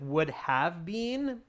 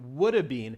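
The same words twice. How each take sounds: First: Have is said in full as a separate word. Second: Have is shortened into a contraction. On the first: "start with would have been" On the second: "change it up to"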